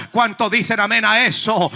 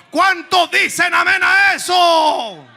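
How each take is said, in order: First: Call to congregation. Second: "¿Cuánto dicen amén a eso?" called out higher, slow and drawn out; stretched shouted amen call. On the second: Preacher calls for amen, slow high shout. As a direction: rouse the congregation with a long, high shout. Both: Real, not acted.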